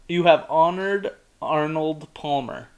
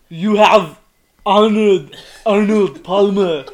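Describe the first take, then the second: First: It is said in the speaker's ordinary accent. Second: It is said in a heavy Austrian-style movie-star accent.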